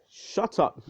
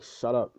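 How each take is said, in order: First: High, sudden retort; acted exasperated yelp, much higher; mock angry outburst. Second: Said in the usual way. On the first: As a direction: cut them off with a high-pitched cry.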